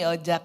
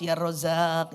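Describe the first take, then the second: First: It is said fast with the sounds slurred. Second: It is said slowly with every sound clear. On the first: The phrase does not take effect. The speaker calls it wrong. "pas buru-buru bukan lagi Ya Rozzaq" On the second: The phrase takes effect. The speaker calls it right. "Tadi udah bagus"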